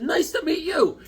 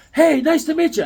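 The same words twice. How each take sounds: First: High-pitched reply without the loudness; acted greeting back. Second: Loud, high-pitched eager hello; mimicked super-friendly greeting. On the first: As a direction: return the greeting in a raised voice. Own reply to friendly stranger. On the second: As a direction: greet like an over-friendly stranger. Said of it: "he's talking super friendly".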